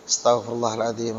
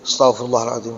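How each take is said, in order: First: It is said softly and humbly. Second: It is said arrogantly and brashly. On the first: Sincerely asking for forgiveness. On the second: It sounds like picking a fight.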